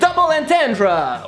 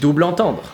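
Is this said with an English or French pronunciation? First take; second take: English; French. First: It is said with an English pronunciation. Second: It is said with a French pronunciation.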